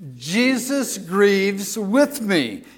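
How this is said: It is said forcefully, with strong conviction. "Now let's say it like we mean it"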